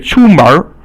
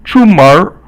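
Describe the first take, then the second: Both takes have the same delivery.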